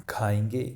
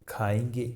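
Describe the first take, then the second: The two takes are said the same way.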